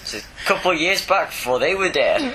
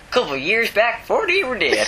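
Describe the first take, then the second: First: It is said in his normal voice. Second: It is said in a put-on hillbilly voice.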